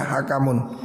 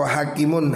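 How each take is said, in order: First: Hakamun with every a kept short; without the alif. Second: Hakimun with a long first "haa", then "kimun"; with the alif. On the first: Teacher showing the word without alif, "hakamun" in short vowels. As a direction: say "hakamun" with no long vowel, ha-ka-mun. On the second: Teacher reading out the word for judge, "hakimun" with long a. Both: Shown as a demonstration. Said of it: "Kalau nggak ada alifnya".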